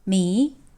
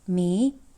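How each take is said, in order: First: The pitch rises from mid to high. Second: The same.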